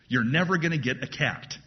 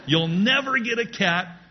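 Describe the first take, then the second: First: Said in the usual way. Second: "never" raised high and louder; preacher insisting to the room, loud on "never"; emphatic repeat. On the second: Shown as a demonstration.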